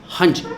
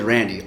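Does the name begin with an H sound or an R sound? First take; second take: H sound; R sound. First: The name begins with an H sound. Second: The name begins with an English R sound. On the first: This is how people in Brazil say the name. "in Brazil it's pronounced Hanji" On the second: This is the name's original English form. "his name is Randy, R A N D Y"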